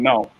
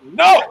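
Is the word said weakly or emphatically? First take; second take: weakly; emphatically. First: It is said weakly, without conviction. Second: It is said emphatically, with strong conviction.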